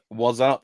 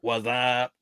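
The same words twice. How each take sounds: First: It is read in a plain voice. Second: It is said as a Scary Movie impression.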